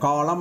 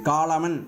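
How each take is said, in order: First: The word ends on m; the n is silent. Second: The word ends with a pronounced n sound. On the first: The speaker calls it right. "காலம் அப்படின்னு தான் சொல்கிறோம்" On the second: The speaker calls it wrong. "காலமன் அப்படின்னு நம்ம இதை படிக்கிறது இல்லை"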